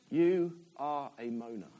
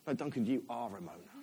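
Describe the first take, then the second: First: "You are a moaner" slow and deliberate, word by word; emphatic slow repeat. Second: Lower, softer, matter-of-fact rebuke; God's quiet correction. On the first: God repeating "You are a moaner" to the preacher, slow emphasis. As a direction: lay out "You are a moaner" slowly, lower in pitch. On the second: God telling the preacher he moans, quiet correction. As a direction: correct him quietly and firmly. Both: Retold or imitated. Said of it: "God said to me".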